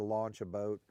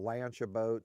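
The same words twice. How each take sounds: First: The vowel has the standard mainland sound. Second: The vowel has the local island dialect sound. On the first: "instead of" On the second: "We'll say that we'll launch a boat"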